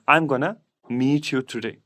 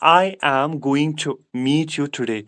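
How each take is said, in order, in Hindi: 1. Going to को एक ही शब्द में छोटा कर दिया जाता है। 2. Going to को दो पूरे शब्दों की तरह बोला जाता है। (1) "गोइंग टू को कंट्रक्शन में लिखेंगे" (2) "मैं इस तरह बोलूंगा"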